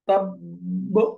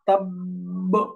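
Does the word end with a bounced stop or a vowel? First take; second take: bounced stop; bounced stop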